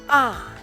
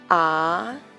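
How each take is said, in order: First: The pitch falls sharply from high to low. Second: The pitch rises from mid to high. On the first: "The fourth tone is a short, sharply falling tone" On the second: "The second tone is a rising tone"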